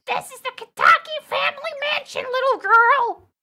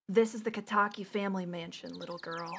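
First: High, loud character-lady voice; Scottish lady attempt. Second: Low, soft character-lady voice; low lady voice attempt. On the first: Lady to little girl at family mansion, high loud character voice. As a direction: push the lady's voice way up high and loud. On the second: Lady to little girl at family mansion, low soft character voice. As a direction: drop low and quiet for the lady. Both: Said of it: "I have to give her a voice".

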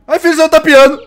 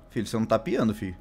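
First: High, very loud yell; panicked shout. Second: Low, softer remark; quiet concern. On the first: Father panicking that his bird isn't chirping, shouted. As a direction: blurt it out yelling in alarm. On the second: Father noting his bird isn't chirping, quietly. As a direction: say it low and contained. Same words, then shouted. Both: Real, not acted.

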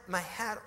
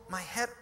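No difference in how they are said.

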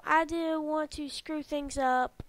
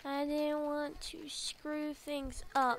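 First: Said in the usual way. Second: Soft, hesitant admission; subdued confession. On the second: Acted. Friend admitting fear of ruining things, softly subdued. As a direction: say it quietly, almost to yourself. Quieter second reading of game line.

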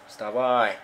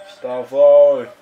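First: Said in the usual way. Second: Loud yell to get up; shouting. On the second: Real, not acted. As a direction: yell it at the screen. Urges again, much louder.

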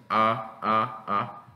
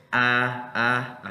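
First: "A" as a back ah, as in option. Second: Open, front "A" as in accurate; slow, wide demo of "A". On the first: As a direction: say each "A" like the first vowel of option. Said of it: "pero es así". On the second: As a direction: stretch "A" slowly like the vowel starting accurate. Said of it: "Esta acá es". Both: Shown as a demonstration.

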